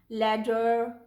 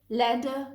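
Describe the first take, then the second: First: It ends in an er sound with r. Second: It ends in an uh vowel without r.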